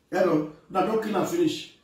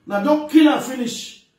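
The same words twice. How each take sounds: First: Said in the usual way. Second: Loud, higher, insistent warning; forceful, raised-voice complaint; emphatic repeat. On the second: Real, not acted. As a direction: drive the warning home with a raised voice.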